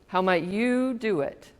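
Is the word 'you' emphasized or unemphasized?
emphasized. The word 'you' is strongly emphasized.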